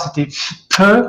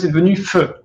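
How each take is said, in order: First: It begins with a p plus a puff of air. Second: It begins with an f sound. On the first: This is the original pronunciation. "au départ, c'était feu ... un pi avec un souffle" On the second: This is the later pronunciation. "et puis après, c'est devenu feu"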